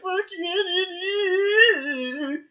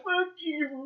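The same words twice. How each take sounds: First: Crying shout. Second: Said in the usual way. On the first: Retold or imitated. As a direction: yell it through tears. Son cursing again, crying.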